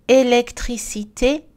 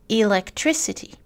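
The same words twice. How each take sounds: First: "Électricité" slow, every syllable equal; French "Électricité", clear vowels, rising end; French even syllables. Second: "electricity" in English, stress on TRIC; English "electricity", one strong syllable; English word stress. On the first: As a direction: spell out French "Électricité" evenly. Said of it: "Les exemples en français". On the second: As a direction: say elec-TRIC-ity with reduced vowels. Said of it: "en anglais dans la colonne de droite". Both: Shown as a demonstration.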